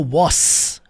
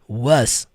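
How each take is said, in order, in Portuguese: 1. A palavra termina com o som de s, um chiado. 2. A palavra termina com o som de z, um zumbido. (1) "Nunca foi was com som de S" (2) "som do Z"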